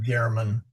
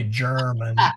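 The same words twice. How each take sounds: First: The word begins with a hard G sound. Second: The word begins with a soft J-like G. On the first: The speaker calls it wrong. "not German" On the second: The speaker calls it right. "also like English, we say German"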